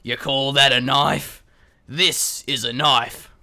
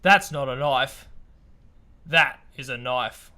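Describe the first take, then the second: First: Put-on slow, gruff Crocodile Dundee Australian accent. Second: Slow, low mock Australian accent; lightly done Aussie tough guy. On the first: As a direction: growl it slow like an Australian bushman. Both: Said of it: "in our best Australian accent".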